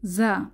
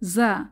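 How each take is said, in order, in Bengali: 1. এটি একটি গুঞ্জনধর্মী 'z' ধ্বনি দিয়ে শুরু। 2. এটি একটি গুঞ্জনধর্মী 'z' ধ্বনি দিয়ে শুরু।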